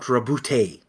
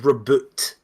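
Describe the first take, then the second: First: The word ends with an added 'ay' vowel. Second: The word ends cleanly on a 't' sound. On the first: The speaker calls it wrong. "not rebootay" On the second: The speaker calls it right. "it is reboot"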